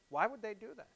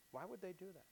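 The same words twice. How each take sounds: First: Said in the usual way. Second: Same question again, much softer and falling; softer repeat. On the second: Real, not acted. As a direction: let it sink in, almost to yourself.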